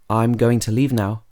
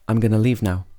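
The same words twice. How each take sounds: First: Going to is said as two full words. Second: Going to is shortened to gonna. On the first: "going to can become gonna" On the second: "would be"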